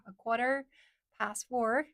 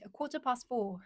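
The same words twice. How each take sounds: First: American "quarter past four", R's sounded; American accent. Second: British "quarter past four", no R's; British accent with long open "past". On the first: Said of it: "that's American accent". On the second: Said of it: "British accent". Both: Shown as a demonstration.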